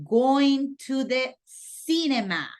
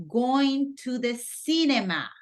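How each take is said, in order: No difference in how they are said.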